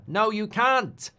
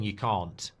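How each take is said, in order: First: High, loud, drawn-out South African "can't" with a short a; South African accent. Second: Said in the usual way. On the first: Acted. Streamer trying the word on request, exaggerated South African accent. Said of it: "South African accent". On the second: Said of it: "but it sounds like something".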